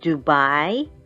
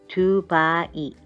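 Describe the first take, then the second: First: The starting d sound is heavy and voiced. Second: The starting d sound is light and soft. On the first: The speaker calls it wrong. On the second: The speaker calls it right.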